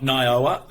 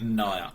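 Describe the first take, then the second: First: The name is pronounced like 'Nioa'. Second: The name is pronounced like 'Naya'. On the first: The speaker calls it wrong. "Not Nioa" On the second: The speaker calls it right. "Naya is correct"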